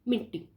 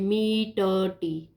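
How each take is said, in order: First: It is said quickly as one joined word. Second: Each syllable is said separately and fully. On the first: The speaker calls it right. "हमने पढ़ा मिट्टी" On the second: The speaker calls it wrong. "हम इसको ऐसे नहीं पढ़ते"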